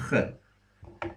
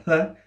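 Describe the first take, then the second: First: "H" as a voiceless rasp at the back of the throat; gravelly H. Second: Said in the usual way. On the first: Shown as a demonstration. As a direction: scrape the "H" in the throat, with no voice. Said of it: "with a bit of gravel in it". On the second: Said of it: "basically a H".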